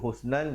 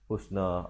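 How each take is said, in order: First: The word ends on a final n sound. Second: The word ends on a long a vowel. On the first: The reciter continues to the next word. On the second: The reciter stops at this word.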